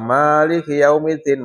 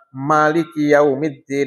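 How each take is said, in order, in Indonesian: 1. Vokal pertama dalam Maliki panjang. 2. Vokal pertama dalam Maliki pendek. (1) "manya panjang" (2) "manya pendek"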